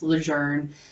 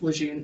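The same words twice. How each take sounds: First: The name is said the original French way. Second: The name is said the local Louisiana way. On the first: This honors the person the base is named after. The speaker calls it right. "it's pronounced" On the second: This is how the family says it on purpose. The speaker calls it wrong. "it's not actually pronounced"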